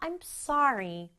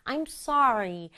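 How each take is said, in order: First: The stress is on sorry. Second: The stress is on sorry.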